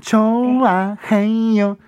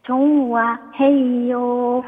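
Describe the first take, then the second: First: 좋아해요 with 조 stretched long as 조오; 좋아해요 starting 조오, slow; drawn-out 조. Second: 좋아해요 with 조 stretched as 조오; 좋아해요 stretched slowly at start; drawn-out 조. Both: Shown as a demonstration. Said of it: "조오로 시작".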